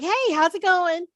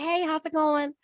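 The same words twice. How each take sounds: First: It is said brightly with high energy. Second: It is said sleepily with low energy.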